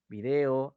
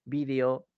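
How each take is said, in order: First: "video" as vi-DE-o, stressed on the middle syllable. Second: "Video" as VÍ-de-o, stressed on the first syllable; "Video" stressed at the start, VÍdeo. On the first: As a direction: say "video" with the weight on DE. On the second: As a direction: say "Video" with the weight on VI. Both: Shown as a demonstration. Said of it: "las formas de expresar".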